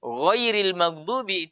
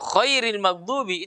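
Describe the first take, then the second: First: GHAIRIL MAGHDUBI slow, with voiced, gentle gh; correct soft ghain. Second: KHAIRIL MAGHDUBI with a raspy kh in place of gh; wrong kha. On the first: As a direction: begin GHAIRIL with a lightly voiced throat sound. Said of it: "kalau gha ini agak lembut". (ghairil maghdubi yang benar, lembut) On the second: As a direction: show the fatal slip, hard throat friction on KHAIRIL. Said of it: "ini kan fatal maknanya". (khairil maghdubi, salah jadi kha) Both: Shown as a demonstration.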